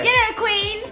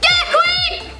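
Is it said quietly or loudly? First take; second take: quietly; loudly. First: It is said quietly. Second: It is said loudly.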